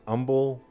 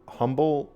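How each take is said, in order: First: The word begins without an H sound. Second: The word begins with an H sound.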